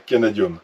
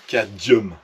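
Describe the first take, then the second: First: It is said with an added syllable, ca-na-dium. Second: It is said with two middle consonants, cad-mium. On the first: The speaker calls it wrong. "et non pas canadium" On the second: The speaker calls it right. "On dit des nickel cadmium"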